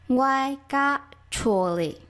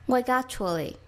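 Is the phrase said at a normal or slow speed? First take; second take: slow; normal. First: The phrase is spoken slowly. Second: The phrase is spoken at normal speed. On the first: "I would say the phrase in a slow speed first" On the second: "and then a normal speed"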